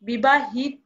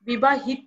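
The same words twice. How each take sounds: First: The word ends in an 'o' sound. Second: The word does not end in an 'o'. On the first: The speaker calls it right. "ও কারান্ত হয়ে যাবে" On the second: The speaker calls it wrong. "হবে না"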